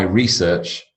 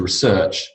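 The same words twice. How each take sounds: First: "research" stressed on the first syllable; noun stress on "research". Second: "research" stressed on the second syllable; verb stress on "research". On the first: Teacher reads noun example to class, first-syllable stress on "research". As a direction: say "research" as REE-search. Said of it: "You got your noun". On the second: Teacher reads verb example to class, second-syllable stress on "research". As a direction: say "research" as re-SEARCH. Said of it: "and you got your verb". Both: Shown as a demonstration.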